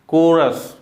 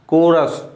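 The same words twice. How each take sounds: Both takes have the same delivery.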